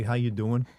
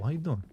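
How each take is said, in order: First: "How you doing?" in a Jersey lilt, doing rising; New Jersey accent. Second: Easy New Jersey "how you doing?" with the doing falling; a light Jersey twang on "how you doing?"; New Jersey accent. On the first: Shown as a demonstration. Answering chat about his voice, a New Jersey accent. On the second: Real, not acted. Streamer greeting a chatter, light New Jersey accent. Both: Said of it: "why I sound New Jersey".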